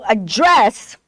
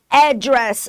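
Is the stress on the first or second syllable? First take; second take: second; first. First: The stress is on the second syllable. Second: The stress is on the first syllable. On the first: This is the British pronunciation. "no inglês britânico, a sílaba mais forte é dress" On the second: This is the American pronunciation. "No inglês americano, a tonicidade é na primeira sílaba"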